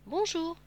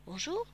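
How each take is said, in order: First: Said in the usual way. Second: Polite greeting with a lift at the end. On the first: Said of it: "dit le renard". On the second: A narrator's reading. Little prince returns the fox's greeting, politely. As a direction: answer courteously, rising in pitch. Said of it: "répondit poliment le petit prince".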